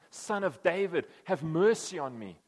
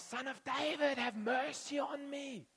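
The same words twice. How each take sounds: First: Louder, slow cry for mercy; a blind beggar calling to Jesus from afar, loud and slow. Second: Much higher, slow plaintive wail; beg, drawn out and high; the blind beggar begging Jesus for mercy; pleading beggar. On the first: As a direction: call across the distance, drawn out. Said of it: "he cries out". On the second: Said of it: "you know, Bartimaeus". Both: Retold or imitated.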